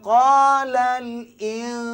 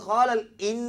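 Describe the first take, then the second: First: The n is hidden as a nasal hum. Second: The n is pronounced fully and clearly. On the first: The speaker calls it right. "macam juga wa qala al in" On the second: The speaker calls it wrong. "bukan qala al in, in itu dengar nunnya"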